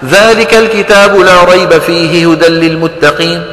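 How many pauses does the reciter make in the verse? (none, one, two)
none. The verse runs through without any pause. The speaker calls it right. "وإذا حب الواحد ما يوقف لا يوقف"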